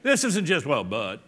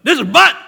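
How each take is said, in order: First: Said in the usual way. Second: "but" punched high and loud; loud, high burst on "but"; emphatic BUT. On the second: Shown as a demonstration. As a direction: hit the word "but" hard. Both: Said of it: "It's very emphatic".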